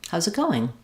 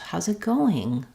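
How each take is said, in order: First: "Going" is said at ordinary length and pitch. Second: "Going" is said longer and higher in pitch. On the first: "So regular" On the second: "A little bit longer, a little bit higher pitch on the going"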